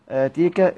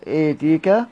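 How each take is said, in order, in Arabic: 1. تُنطق الحركة الطويلة مفتوحة، مثل a. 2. تُنطق الحركة الطويلة مُمالة نحو e. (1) "هكذا يقرأها بالفتح والإمالة" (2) "هكذا يقرأها بالفتح والإمالة"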